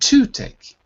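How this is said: The stress falls on the word to. The speaker calls it wrong. "If it was on the first word, it would be to take"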